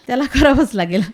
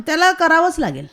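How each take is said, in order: First: A laugh breaking into the repeat. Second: Said in the usual way. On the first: Real, not acted. Mother to interviewer about her son, laughing. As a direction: laugh through it, amused and firm.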